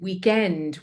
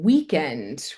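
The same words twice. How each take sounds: First: The stress is on the second syllable. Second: The stress is on the first syllable. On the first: "You're kind of saying weekend with the stress on end" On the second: "I'm saying weekend with the stress on week"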